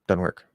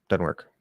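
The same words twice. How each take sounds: Both takes have the same delivery.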